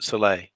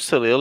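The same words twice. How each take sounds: First: The final L sound is left silent. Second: The final L sound is clearly pronounced. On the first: "the French pronounce it soleil. As if, you know, that L isn't there on the end" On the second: "if you want to pronounce it this way"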